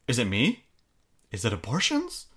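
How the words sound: It is said with an exaggeratedly surprised tone.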